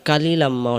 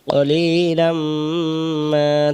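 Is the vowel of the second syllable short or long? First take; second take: short; long. First: The second syllable's vowel is short. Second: The second syllable's vowel is lengthened. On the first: The speaker calls it wrong. "অনেকে পড়ি, হ্যাঁ তখন ভুল হবে" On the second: The speaker calls it right. "লি টান দিবেন এক আলিফ"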